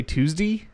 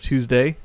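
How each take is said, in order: First: "Tuesday" ending in an E sound, like "Tuesdee"; Baltimore -ay ending. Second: Said in the usual way. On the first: Shown as a demonstration. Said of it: "come out more like E". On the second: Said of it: "instead of Tuesday".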